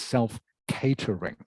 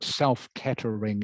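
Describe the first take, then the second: First: The A in catering sounds like day. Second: The A in catering sounds like cat. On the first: The speaker calls it right. "the A is pronounced like an A sound" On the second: The speaker calls it wrong. "not A as in cat. So it's it's not self-catering"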